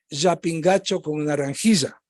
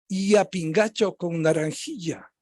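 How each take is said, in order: First: The ll sounds like a buzzing zh. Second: The ll sounds very soft, like a light y. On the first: This is how Quito speakers over fifty say it. "a lo quiteño mayor de cincuenta" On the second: This is how Quito speakers under twenty say it. "más suave aún, casi como los peruanos"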